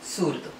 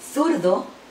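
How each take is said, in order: First: The first consonant is a plain s sound. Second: The first consonant is a soft th sound. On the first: This is how Latin America says it. "luego el ceseo" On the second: This is how most of Spain says it. "primero el sonido interdental"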